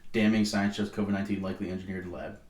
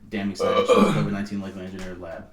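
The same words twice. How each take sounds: First: It is read in a plain, flat way. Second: It is read in a dramatic, heightened way.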